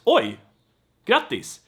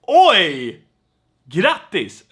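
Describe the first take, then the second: First: It sounds plain and only mildly surprised. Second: It sounds strongly amazed and impressed. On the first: The news is only a little surprising. "not like uh, just" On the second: The listener is deeply impressed by the news. "you're also very like amazed by this person"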